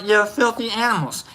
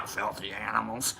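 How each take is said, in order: First: Said in the usual way. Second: Much lower and softer; low quoted growl-off. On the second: Acted. Host repeats film line to viewers, low and quiet. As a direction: drop it right down, almost to yourself.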